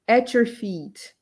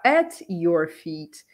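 First: At your feet linked as "atchur feet"; all joined together. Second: At your feet with each word separate. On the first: Teacher shows how natives link it, joined At your feet. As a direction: run At your into one word, slowly drawn out. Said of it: "Ele vai falar tudo junto". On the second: Teacher shows what natives don't say, separated at your feet. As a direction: keep the T of at apart from your. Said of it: "aqui ele não fala at your feet". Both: Shown as a demonstration.

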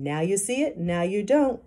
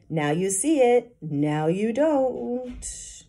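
First: Said in the usual way. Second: Slow, drawn-out puzzled patter; confused. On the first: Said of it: "Mitch repeating". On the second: A narrator's reading. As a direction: trail off, losing the thread of the trick. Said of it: "Mitch sounded confused".

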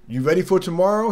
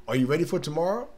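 First: Higher, faster eager customer asking; eager question. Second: Said in the usual way. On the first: Retold or imitated. Customer at work asking about Christmas, eager and quick. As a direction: toss it out quick and bright.

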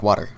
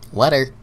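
First: Said in the usual way. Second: WATER said as "wetter", pitched higher; playful mispronunciation. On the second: Pretend. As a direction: turn the first vowel of WATER into a short e. Playfully repeats water, changed vowel.

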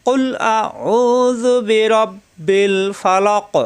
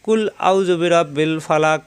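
First: Slow, higher melodic tilawat with long vowels; correct recitation. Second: Faster, plain কুল আউযু বিরাব্বিল ফালাক with short কুল; common mistaken reading. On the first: Teacher modeling the correct recitation for students. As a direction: chant কুল আউযু বিরাব্বিল ফালাক slowly and correctly. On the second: Teacher showing how many read it wrongly. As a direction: read কুল as কুলা without the chant. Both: Shown as a demonstration. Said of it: "আমরা কিন্তু অনেকেই এভাবে পড়ি".

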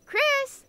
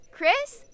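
First: High call across the room; calling out higher. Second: Calling a name across the room. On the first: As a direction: call the name again, higher. Calls again, louder search. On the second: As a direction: call out to find him. Looking for Chris, calling out. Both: Real, not acted.

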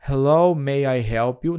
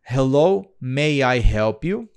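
First: "Hello, may I help you?" echoed a bit slower; imitating the audio. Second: Slow, deliberate English practice read; slow careful reading. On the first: Teacher echoing the app audio to the student, slightly slowed. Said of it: "Olha só". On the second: Teacher modelling a slow read for the student, slow and careful. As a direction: read it out slowly, word by word. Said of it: "eu posso fazer a leitura". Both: Shown as a demonstration.

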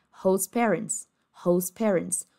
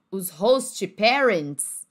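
First: HOST PARENTS linked as "hohs-PEH-rents"; fluid, T dropped. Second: HOST PARENTS as "HOHS-chee PEH-rents", very slow; Brazilianized host parents. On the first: Teacher showing native flow, T-less host parents. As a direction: run host into parents without the T. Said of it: "eles falariam de uma forma fluida". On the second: Teacher contrasting learner form, overpronounced host parents. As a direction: spell out host with an extra "chee". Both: Shown as a demonstration.

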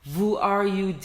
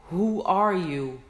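First: "Who" said as "vu" with a v; "Who are you" with a hard v at the start; wrong v. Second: "who are you" slow, w like a breath of wind; right w. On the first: ("Who" v ile yanlış) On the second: ("who" rüzgar gibi w ile) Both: Shown as a demonstration. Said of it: "Who are you değil".

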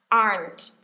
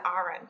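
First: "aren't" as one firm syllable, "ahnt"; correct aren't. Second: "aren't" wrongly in two syllables, "A-ran", softer; mispronounced aren't. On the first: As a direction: say "aren't" as a single "ahnt", ending on a t. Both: Shown as a demonstration. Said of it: "Chứ không phải là aren't".

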